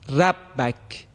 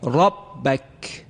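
First: The r sound is light and thin. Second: The r sound is heavy and full. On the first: The speaker calls it wrong. "ترقیق شد، لذا درست نیست" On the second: The speaker calls it right. "حرف را درشت و پرحجم ادا شد"

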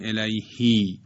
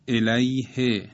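First: The final vowel is lengthened. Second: The final vowel is short. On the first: The speaker calls it wrong. "نمیگیم الیهی" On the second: The speaker calls it right. "بدون اشباع و صدای کوتاه"

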